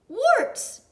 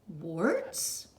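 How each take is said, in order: First: It is said as a loud exclamation. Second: It is said as a rising question.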